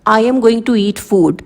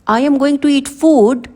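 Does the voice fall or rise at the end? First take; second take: fall; rise. First: The voice falls at the end. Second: The voice rises at the end. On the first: It is a plain statement. "ये एक normal sentence है" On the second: It sounds like a question. "अगर आप इसे rising intonation में बोलोगे"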